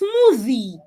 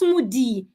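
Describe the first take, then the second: First: The middle sound is made with the tongue between teeth. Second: The middle sound is made without the tongue between teeth. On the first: The speaker calls it right. "it's smoothie" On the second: The speaker calls it wrong. "It's not smoothie"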